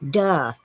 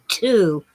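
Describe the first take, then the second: First: The vowel is reduced to an 'uh' sound. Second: The vowel is a full 'oo' sound. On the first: The speaker calls it wrong. "and they pronounced it duh" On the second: The speaker calls it right. "it was T O, too"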